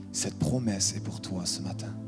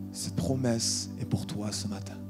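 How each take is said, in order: Both takes have the same delivery.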